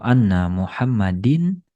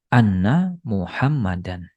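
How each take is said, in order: First: The name ends with an -in sound. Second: The name ends with an -an sound. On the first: The speaker calls it wrong. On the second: The speaker calls it right. "Jadi menjadi anna Muhammadan"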